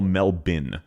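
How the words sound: The second syllable is reduced, like 'bin'. The speaker calls it right. "We say Melbourne or Melbin"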